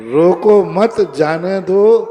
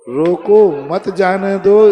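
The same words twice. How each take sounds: First: Loud, slow रोको मत, then a break before जाने दो; group रोको मत together, pause, then जाने दो; pause after मत. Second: Loud, drawn-out रोको, break, then मत जाने दो together; pause after रोको. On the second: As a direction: split off रोको and join मत to जाने दो. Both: Shown as a demonstration. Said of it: "ये पंक्ति को गलत करो".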